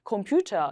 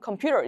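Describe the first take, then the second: First: It is said with a British English accent. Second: It is said with an American English accent. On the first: The speaker calls it right. "computer 이렇게 많이 읽는 편이고요" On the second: The speaker calls it wrong. "미국식 영어처럼 computer 이렇게 하는 게 아니라"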